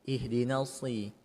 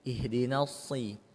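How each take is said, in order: First: The s sound is thick and heavy. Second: The same.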